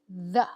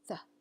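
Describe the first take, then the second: First: The th sound is voiced, with buzzing. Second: The th sound is unvoiced, only air.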